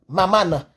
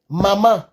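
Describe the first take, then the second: First: The word ends with an added a vowel. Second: The word ends on its nasal vowel.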